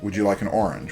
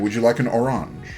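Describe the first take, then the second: First: Orange is said the ordinary English way. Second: Orange is said in an altered, French-like way. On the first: This is how most people say it. "in this house we don't say" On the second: This is a playful private word shared at home. "We say"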